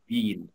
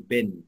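First: The vowel is long and drawn out. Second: The vowel is short and said quickly. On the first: The speaker calls it wrong. "مش بين" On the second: The speaker calls it right. "بقول بن مش بين"

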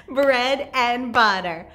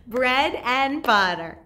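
No difference in how they are said.

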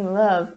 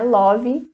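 First: The word is said with a native English pronunciation. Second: The word is said with a Portuguese-like pronunciation. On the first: The speaker calls it right. "sim love" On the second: The speaker calls it wrong. "Não é love"

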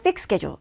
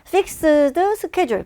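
First: The d at the end of fixed is dropped. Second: The d at the end of fixed is pronounced. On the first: "fix의 ed 부분을 발음을 하지 않고 그냥 fix schedule" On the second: "fixed schedule 발음이 어렵죠"

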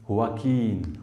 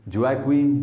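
First: The name begins with an H sound. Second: The name begins with a J sound. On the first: The speaker calls it right. "इसकी correct pronunciation है हुआकीन" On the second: The speaker calls it wrong. "अब इसे आप pronounce करेंगे तो क्या करेंगे"

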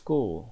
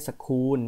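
First: The k sound is unaspirated, like Thai ก. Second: The k sound is aspirated, with a puff of air. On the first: The speaker calls it right. "มันจะเป็นเสียงกอไก่ ... เราเรียกว่า" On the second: The speaker calls it wrong. "ไม่ใช่"

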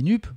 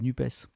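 First: The name ends with a plain 'p' sound. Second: The name ends with an audible 'ess' sound. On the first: "un autre qui dit NUP" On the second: "un présentateur qui dit NUPES"

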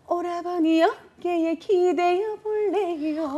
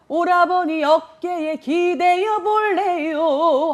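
First: The voice is strongly nasal and cute-sounding. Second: The voice is plain, without added nasal resonance. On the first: "콧소리를 넣어서" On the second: "하면 돼요"

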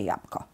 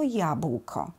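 First: The ł is dropped and b becomes p. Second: The middle cluster is said in full as bł. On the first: This is a casual colloquial pronunciation. "litera b zamienia się w głoskę p, więc będzie jabłko. Też poprawne" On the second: This is the careful pronunciation. "Jeśli przyjmujemy wymowę staranną, to jabłko"

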